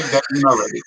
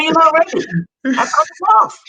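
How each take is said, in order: First: Said in the usual way. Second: Much higher and louder, almost crying out; raised retort. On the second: Retold or imitated. Man scolding village men who would not apply, much higher and louder. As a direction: hammer the point home at the village men. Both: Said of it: "I said".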